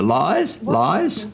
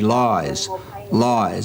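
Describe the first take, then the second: First: The pitch rises at the end of each word. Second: The pitch falls at the end of each word. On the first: The speaker is unsure and seeks the listener's support. "as opposed to" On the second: The speaker is confident and believes what they say. "when you're being honest and open about what you're saying and you believe it"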